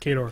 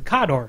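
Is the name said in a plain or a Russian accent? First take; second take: plain; Russian. First: The name is said without a Russian accent. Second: The name is said with a Russian accent. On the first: This is how the game's makers want it said. "the way privateer just wants it" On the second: This is how the name would really sound in Russian. "how Kador is actually supposed to be pronounced in the Russian accent"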